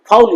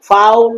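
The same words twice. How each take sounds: First: ফাউল said quickly with little glide; quick everyday ফাউল; wrong pronunciation. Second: ফাউল slowly drawn out as 'faa-ul'; long, careful ফাউল; correct diphthong. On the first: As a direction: say ফাউল short, as the mistake. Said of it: "ফাউল নয়". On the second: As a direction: stretch the 'au' glide in ফাউল. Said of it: "ফাউল নয়, ফাউল". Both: Shown as a demonstration.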